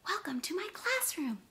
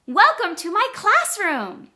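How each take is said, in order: First: High but much softer excited echo; echoed excitement. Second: Much higher and louder, bursting with excitement; really excited. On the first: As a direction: repeat it with eager excitement, softly. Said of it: "repeat the sentence just like I said it". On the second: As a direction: announce it with big excitement. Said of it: "if I say really excited". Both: Shown as a demonstration.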